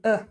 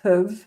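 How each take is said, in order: First: It is just a weak vowel without consonants. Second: It keeps the h and v around a weak vowel. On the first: "or even uh" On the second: "which could become huv"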